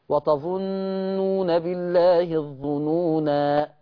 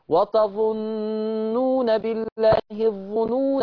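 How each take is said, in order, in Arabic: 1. تنتهي بألف مدّ طويلة في آخرها. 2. تُوصَل بحركة قصيرة في آخرها. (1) "نطقت الالف وقفا واثبات الالف وقفا" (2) "يبقى هنا حذفت الالف ايه؟ وصلا"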